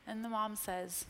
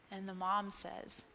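The two takes are said the same way.

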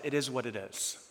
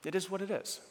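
First: Soft, low-key acceptance; quiet resigned quote. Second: Soft reflective echo. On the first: Retold or imitated. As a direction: let it go quietly, a shrug in the voice. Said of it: "I just said to myself". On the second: Shown as a demonstration. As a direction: say it softly to yourself. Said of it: "preacher repeats friend's words".

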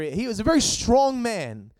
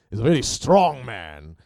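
First: Said in the usual way. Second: Badly faked Welsh-British accent, loud and low; terrible British accent. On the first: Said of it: "but anyway, a Welsh accent, whatever". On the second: Shown as a demonstration. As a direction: have a bad go at a Welsh accent. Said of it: "That was a terrible British accent. ... a Welsh accent".

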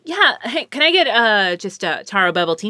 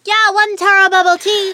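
First: Said in the usual way. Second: Very high put-on barista voice; high, sing-out order repeat; barista's voice. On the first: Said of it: "and I'm like". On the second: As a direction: imitate a barista with a startlingly high voice. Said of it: "that's actually how you sound".

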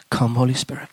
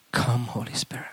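First: Said in the usual way. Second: Breathy whisper, much softer; whispered prayer. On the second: Shown as a demonstration. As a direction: whisper the invocation. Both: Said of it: "I begin to pray".

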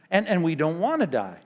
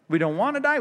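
First: Said in the usual way. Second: DIE pushed much higher and louder; emphatic repeat. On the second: Real, not acted. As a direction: lift "die" way up, pleading. Repeats the line, pitch jumps.

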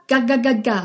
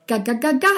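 First: "Ga, ga, ga, ga" with the pitch falling at the end; falling tune. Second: "Ga, ga, ga, ga" with the pitch rising at the end; rising tune. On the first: Teacher shows the class a falling "Ga, ga, ga, ga". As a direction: let "ga" drop downward. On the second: Teacher shows the class a rising "Ga, ga, ga, ga". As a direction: let "ga" climb upward. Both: Shown as a demonstration. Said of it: "ustedes jueguen con sus entonaciones".

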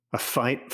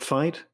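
First: Said in the usual way. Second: "fight?" rising higher in alarm; anxious echo. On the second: Acted. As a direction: repeat "fight?" with a worried rise. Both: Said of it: "asked her father, suddenly anxious".

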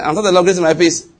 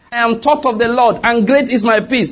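First: Said in the usual way. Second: Proper recited answer. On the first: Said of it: "He said". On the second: Retold or imitated. Daughter correcting herself to her mother, recites proudly. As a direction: recite it the right way, higher and bolder. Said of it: "He said, "Good".

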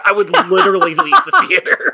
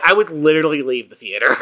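First: High, squeaky through laughter; giggling while repeating it; laughing. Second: Said in the usual way. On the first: Real, not acted.

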